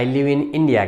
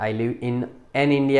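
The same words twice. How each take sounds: First: Said in the usual way. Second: "an" picked out with weight in "I live in an India"; stress on wrong an. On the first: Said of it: "કહેવાય". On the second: Shown as a demonstration. Teacher stresses the wrong "an" to warn the students. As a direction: lean on "an" to show the mistake. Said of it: "એમ નહીં કહેવાય".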